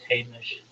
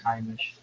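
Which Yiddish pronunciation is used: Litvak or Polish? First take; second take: Litvak; Polish. First: It is said in the Litvak Yiddish way. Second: It is said in the Polish Yiddish way. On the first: "Those of the Litvak camp use the first pronunciation"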